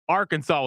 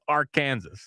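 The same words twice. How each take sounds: First: It ends with a soft 'saw' sound. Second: It ends like the word 'Kansas'. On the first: The speaker calls it right. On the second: The speaker calls it wrong.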